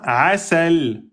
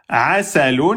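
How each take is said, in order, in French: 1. Le mot s'arrête sur sa consonne finale. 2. Le mot se termine par un son 'un' final.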